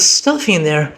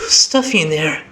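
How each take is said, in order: First: It is spoken in an American accent. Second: It is spoken without an American accent. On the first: The speaker calls it right. "Let's switch back to that" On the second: The speaker calls it wrong. "I gave her an American accent before"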